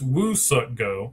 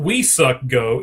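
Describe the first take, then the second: First: The first syllable sounds like 'woo'. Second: The first syllable sounds like 'we'. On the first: The speaker calls it right. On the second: The speaker calls it wrong. "It's not"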